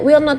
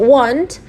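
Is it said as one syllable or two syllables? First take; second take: two syllables; one syllable. First: It is said as two full words. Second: It is said as one contracted syllable. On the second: "bisa dibaca want"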